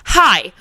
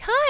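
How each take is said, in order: First: The greeting sounds cold and unfriendly. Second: The greeting sounds warm and friendly.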